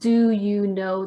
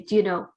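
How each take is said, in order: First: Every sound of each word is said clearly. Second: The words run together with sounds dropped. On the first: "Instead of saying" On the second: "they say"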